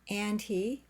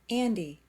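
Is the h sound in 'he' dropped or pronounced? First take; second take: pronounced; dropped. First: The h sound in 'he' is pronounced. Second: The h sound in 'he' is dropped.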